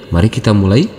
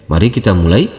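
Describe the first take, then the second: No difference in how they are said.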